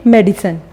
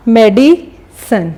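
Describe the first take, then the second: First: Said in the usual way. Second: medicine slowly, pause between मेडि and सन; syllable break. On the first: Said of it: "बोलने में किस तरीके से आ रहा है". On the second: Shown as a demonstration. Teacher showing how we will say it, medicine in two slow parts. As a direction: split medicine into मेडि, then सन. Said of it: "हम इस तरीके से बोलेंगे".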